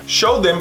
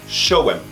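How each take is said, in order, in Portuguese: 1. 'Them' é falado por completo, com o seu som de 'th'. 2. 'Them' é reduzido a 'em', sem o 'th'.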